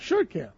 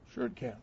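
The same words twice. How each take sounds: First: Said in the usual way. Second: Dropped to a near-whisper, much softer; soft echo. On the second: Shown as a demonstration. Preacher echoing his own answer to himself, almost whispered. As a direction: let the repeat fall away to a hush. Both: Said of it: "repeated, then echoed softly".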